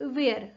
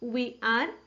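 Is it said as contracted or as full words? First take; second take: contracted; full words. First: It is said as one contracted syllable. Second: It is said as two full separate words.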